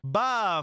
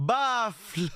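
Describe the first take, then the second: First: The word ends on an F sound. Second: The word ends with an L sound. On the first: The speaker calls it wrong. "arrêtez de dire baf. C'est une faute" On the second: The speaker calls it right. "Apprenez à prononcer"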